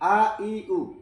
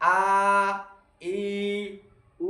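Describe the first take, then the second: First: The vowels are said short and quickly. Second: The vowels are drawn out slowly. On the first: The speaker calls it right. "হরকত সব সময় তাড়াতাড়ি করে পড়তে হবে" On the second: The speaker calls it wrong. "এভাবে পড়তে পারবে না"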